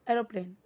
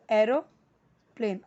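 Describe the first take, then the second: First: Said in the usual way. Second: aeroplane slowly as "aero", pause, "plane"; split in halves. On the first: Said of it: "half half करके aeroplane". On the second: Shown as a demonstration. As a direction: break aeroplane into two separate halves. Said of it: "half half करके". (Aeroplane को आधा-आधा तोड़कर, धीरे)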